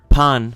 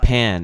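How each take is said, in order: First: The word is said with Spanish pronunciation. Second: The word is said with English pronunciation. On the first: The speaker calls it right. "the word pan for bread in Spanish" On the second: The speaker calls it wrong. "pronouncing like pan in English"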